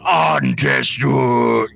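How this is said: It is said with a foreign, native-style inflection. The speaker calls it right. "I should be saying that every single time with that same inflection"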